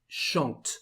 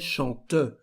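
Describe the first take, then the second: First: It ends on the T with no vowel. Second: A final vowel is sounded after the T. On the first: The speaker calls it right. "We just say chante" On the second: The speaker calls it wrong. "We don't say chante"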